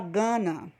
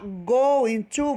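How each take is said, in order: First: The words blend into one reduced word. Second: Two full words are said separately. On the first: "você fala gonna" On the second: "Ao invés de você falar go into"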